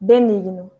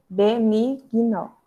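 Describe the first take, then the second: First: Said in the usual way. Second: Benigno said slowly, syllables pulled apart; teacher slowing benigno for dictation; slow and clear. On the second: Shown as a demonstration. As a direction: drag out benigno so the class can split it.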